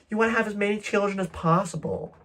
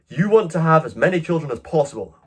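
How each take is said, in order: First: It is read in a put-on Californian accent. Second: It is read in the speaker's ordinary accent.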